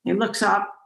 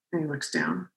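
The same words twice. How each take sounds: First: Lifted slightly on up; looking up. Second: Dropped lower and much softer; looking down. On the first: Telling the host about the shaman, voice rising on up. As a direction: voice drifts up with the glance. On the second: Telling the host about the shaman, dropping low and soft. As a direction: let the voice sink as his eyes go down. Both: Retold or imitated.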